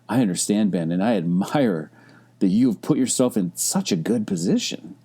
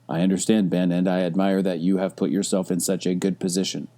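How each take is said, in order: First: It is said with lively, varied intonation. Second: It is said flatly, with little intonation. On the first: The speaker sincerely admires the listener. The speaker calls it right. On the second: The message carries no real feeling. The speaker calls it wrong.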